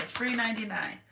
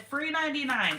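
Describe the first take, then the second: First: Said in the usual way. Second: Sung out high and bright, louder; playful catchphrase. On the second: Real, not acted. To viewers, a high playful catchphrase. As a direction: toss it out like a punchline.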